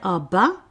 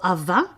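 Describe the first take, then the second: First: The middle consonant is a B sound. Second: The middle consonant is a V sound. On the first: "the V or the B is interchangeable" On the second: "the V or the B is interchangeable"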